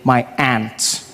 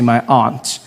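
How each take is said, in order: First: It is said in an American accent. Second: It is said in a non-American accent. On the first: "Out here you say my aunt" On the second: "I say my aunt"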